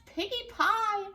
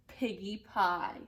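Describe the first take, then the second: First: Much higher and louder, slow, savoring witch; a greedy witch relishing the words; high, loud drawn-out witch delight; gleeful witch voice. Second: Said in the usual way. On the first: Acted. Gritch the witch voiced in story.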